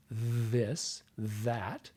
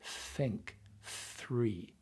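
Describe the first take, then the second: First: "this", "that" with a buzzing th; voiced th. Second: "think", "three" with an airy th; only breath on the th of "think", "three"; unvoiced th. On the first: Coach teaching two th sounds, "this, that" with voiced th. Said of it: "You have a voiced T H". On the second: Coach teaching two th sounds, "think, three" with voiceless th. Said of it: "you have an unvoiced T H". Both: Shown as a demonstration.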